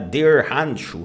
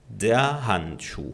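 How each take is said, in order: First: It is said with a Texan American accent. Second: It is said with a German accent.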